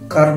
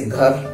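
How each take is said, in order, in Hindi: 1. यह सादी k ध्वनि से शुरू होता है। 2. यह साँस वाली g ध्वनि से शुरू होता है।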